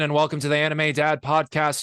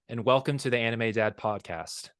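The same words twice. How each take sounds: First: It is said as a Jesse Pinkman impression. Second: It is said in his normal voice.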